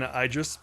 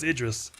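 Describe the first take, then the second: First: The name is pronounced in a deliberately silly way. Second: The name is pronounced the standard way. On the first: The speaker calls it wrong. "I like saying Idris because it triggers people" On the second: The speaker calls it right. "I know it's Idris"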